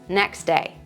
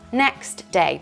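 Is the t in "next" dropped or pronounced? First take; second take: dropped; pronounced. First: The t sound is dropped, words melted together. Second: The t sound is clearly pronounced before day. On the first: "we melt them together" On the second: "It should be next day"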